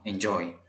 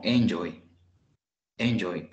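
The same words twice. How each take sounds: First: Enjoy stressed on JOY; enJOY, en kept light; stress on last syllable. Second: Enjoy wrongly stressed on EN; ENjoy, EN punched and joy dropped; stress on first syllable. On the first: Teacher correcting the wrong version for learners, final-syllable stress. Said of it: "Al final, enjoy". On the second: Teacher showing learners the wrong version, first-syllable stress. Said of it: "si lo tuviera al inicio diría como". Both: Shown as a demonstration.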